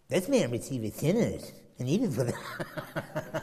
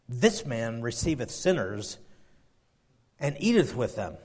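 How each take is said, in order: First: It is said in a scornful, grumbling tone. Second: It is read in a plain, neutral tone.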